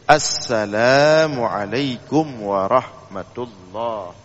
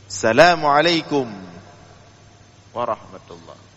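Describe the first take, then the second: First: The opening 'as' sound is clearly pronounced. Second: The opening 'as' sound is dropped. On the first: The speaker calls it right. "As, dia ada alif lam syamsiah" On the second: The speaker calls it wrong. "Kebanyakan kita tidak menggunakan alif lam"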